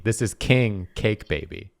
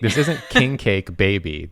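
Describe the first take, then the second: First: Put-on "king" stressed and set apart from "cake baby"; "king" as a title, then "cake baby"; emphasis on king. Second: Put-on "king cake" run together as one name, then "baby"; group it as "king cake" baby; king cake as one unit. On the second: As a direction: stress joins "king cake" before "baby". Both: Shown as a demonstration. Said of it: "where you put the emphasis".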